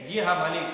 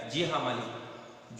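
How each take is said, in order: First: Said in the usual way. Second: Soft, slow, timid yes sir; frightened governess answers her employer softly; timid trembling reply. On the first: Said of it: "Julia फिर भी क्या कहती है". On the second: A narrator's reading. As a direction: shrink back and murmur it. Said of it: "आवाज कांपने लगती है".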